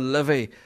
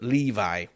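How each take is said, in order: First: The name does not sound like the jeans brand. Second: The name sounds like the jeans brand. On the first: The speaker calls it right. "But it was the Livy" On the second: The speaker calls it wrong. "I pronounced it Levi. You know, like the jeans"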